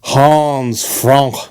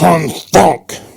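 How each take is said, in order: First: It is said plainly in an English accent. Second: It is said harshly in a German accent.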